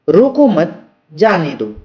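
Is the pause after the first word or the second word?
second word. The pause comes after the second word.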